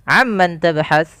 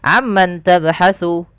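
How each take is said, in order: First: The last word ends on a consonant, no final vowel. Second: The last word ends with a final vowel u.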